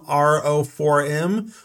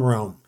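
First: The name is spelled out letter by letter. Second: The name is said as one word. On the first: "Would I just call him R-O-4-M" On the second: "or would I just call him Rome?"

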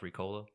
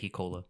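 First: The word begins with an R sound. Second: The word begins with an H sound. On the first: "you know the cough drops Ricola?" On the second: "I say Hicola. ... Just like out of instinct"

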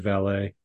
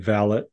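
First: It is pronounced the speaker's own, non-British way. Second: It is pronounced the British way. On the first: "whereas we would say valet" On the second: "How Brits say valet"

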